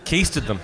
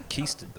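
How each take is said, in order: First: Said in the usual way. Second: Keisted them breathed almost voiceless after a laugh; quiet repeat. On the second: Real, not acted. Host repeats the customs joke, soft and breathy. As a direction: mutter Keisted under the laughter.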